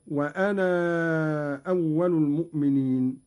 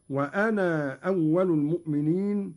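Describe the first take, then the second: First: "وأنا" with its final alif held long before "أول"; lengthened madd. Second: "وأنا" keeping its final alif as a short long a; brief two-beat "naa" in "وأنا" before "أول"; short madd. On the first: Teacher showing second allowed reading, "وأنا" with a prolonged madd. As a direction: stretch the "naa" of "وأنا" before the hamza. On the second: Teacher showing first allowed reading, "وأنا" with the shorter madd. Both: Shown as a demonstration. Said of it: "يجوز فيه المد والقصر".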